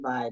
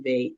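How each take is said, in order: First: The vowel rhymes with 'eye'. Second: The vowel rhymes with 'day'. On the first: This is the form outsiders use. The speaker calls it wrong. "they don't say Vi" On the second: This is how the people themselves say it. The speaker calls it right. "they say Ve in their native language"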